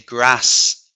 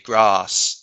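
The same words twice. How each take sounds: First: It is said in a northern English accent. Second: It is said in a southern English accent. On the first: "I say grass, for example, which is northern" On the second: "I don't say grass, okay, which is southern"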